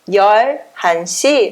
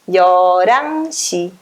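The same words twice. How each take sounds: First: The h sound in the middle is pronounced. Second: The h sound in the middle is dropped. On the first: "onze horas seria 열한 시" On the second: "vai ficar 열한 시"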